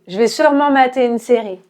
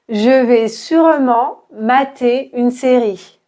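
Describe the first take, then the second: First: The sentence is said fast, with vowels dropped. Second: The sentence is said at a medium pace. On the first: "très rapidement, on va enlever le E de je" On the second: "maintenant un peu plus vite"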